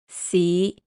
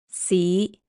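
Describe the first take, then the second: First: The syllable is said in Cantonese tone five. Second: The same.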